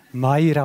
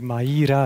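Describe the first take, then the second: First: Maira as two syllables, MAI-ra; diphthong in Maira. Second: Maira as three syllables, Ma-I-ra; split vowels in Maira. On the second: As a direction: say Maira with a separate, stressed "i". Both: Shown as a demonstration. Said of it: "Ich habe es vielleicht anders betont".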